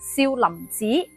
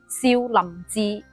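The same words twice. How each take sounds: First: 寺 is said with a changed high rising tone. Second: 寺 is said with its usual low level tone. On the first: "故意變調，將佢讀成第二聲" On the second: "粵語讀字"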